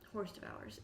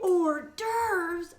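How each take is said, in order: First: It is said 'horse devours' as the spelling suggests. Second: It is said 'or-derves' with silent letters. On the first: The speaker calls it wrong. "I pronounced that horse devours" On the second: The speaker calls it right. "when people would say hors d'oeuvres"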